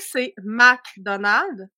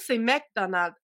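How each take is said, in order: First: The first syllable is said with an open 'a'. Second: The first syllable is said with an 'e' vowel. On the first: This is how it is said in France. "chez vous, c'est McDonald's" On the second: This is how it is said in Quebec. "chez nous, c'est McDonald's, M C Donald. Il n'y a pas de A"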